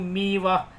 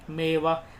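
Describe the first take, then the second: First: The first vowel sounds like 'ee'. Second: The first vowel sounds like 'ay'. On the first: The speaker calls it wrong. "मीवा कोई word ही नहीं होता" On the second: The speaker calls it right. "मेवा तो समझ में आ रहा है"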